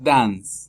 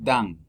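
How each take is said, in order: First: The final s is pronounced. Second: The final s is silent. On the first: The speaker calls it wrong. "No es dance" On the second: The speaker calls it right. "La S es muda"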